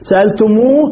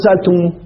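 First: سألتموه with its last "moo" held and rising; سألتموه ending on a long, lifted "moo"; final long vowel. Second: سألتموه cut to a short final "mu"; سألتموه ending on a quick "mu", no long oo; waw dropped. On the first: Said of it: "نحذف الواو". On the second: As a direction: shorten the last vowel of سألتموه to a brief u. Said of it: "فقط نحذف الواو". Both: Shown as a demonstration.

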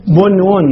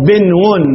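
First: بنون said "bunwun", u after the ب; damma on the first letter. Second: بنون said "binwun", i after the ب; kasra on the first letter. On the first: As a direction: say بنون with a short u: BUN-wun. (بنون بضم الباء وسكون النون) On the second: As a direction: say بنون with a short i: BIN-wun. (بنون بكسر الباء وسكون النون) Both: Shown as a demonstration. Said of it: "أصلها ماذا".

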